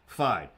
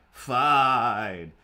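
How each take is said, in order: First: Said in the usual way. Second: "Fine" shouted louder, drawn out and falling; loud exasperated fine. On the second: Retold or imitated. Giving in to the comic's nagging, loud drawn-out "Fine". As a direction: give in with a loud groaning "Fine".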